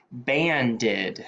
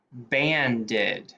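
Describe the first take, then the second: No difference in how they are said.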